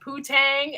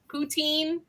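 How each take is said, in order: First: The last syllable sounds like 'tang'. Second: The last syllable sounds like 'teen'. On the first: The speaker calls it wrong. "I said poutang instead of" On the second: The speaker calls it right. "instead of pout poutine"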